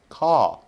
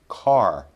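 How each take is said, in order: First: British accent, with no r sound. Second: American accent, with the r sound. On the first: "in a British accent, it would be something like" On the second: "We want the standard American sound"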